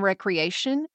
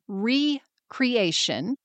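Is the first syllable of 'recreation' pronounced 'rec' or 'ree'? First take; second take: rec; ree. First: The first syllable sounds like 'rec'. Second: The first syllable sounds like 'ree'. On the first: Leisure and relaxation. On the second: Creating oneself anew.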